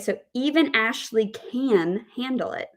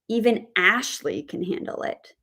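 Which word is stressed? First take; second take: can; Ashley. First: The stress is on the word can. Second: The stress is on the word Ashley. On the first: The focus is on her ability to manage it. "we have the word stress on can" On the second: The focus is on this particular person managing it. "if we put the word stress on the name Ashley"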